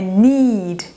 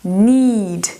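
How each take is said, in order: The two takes are said the same way.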